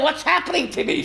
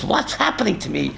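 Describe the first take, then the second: First: Raised in pitch, rising amazement; higher wonder. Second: Softer, lower, amazed mother's voice; quiet wonder. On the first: Rabbi voicing the mother catapulted higher and higher, lifted wonder. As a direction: lift the voice as if soaring upward. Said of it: "she's saying". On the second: Rabbi voicing the departed mother rising in heaven, hushed wonder. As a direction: marvel at it under your breath. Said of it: "She says". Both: Retold or imitated.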